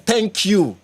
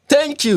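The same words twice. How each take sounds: First: Said in the usual way. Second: Much higher, delighted "Thank you"; emphatic thanks. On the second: Real, not acted. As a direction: cheer the comment on with "Thank you". Agreeing with a comment.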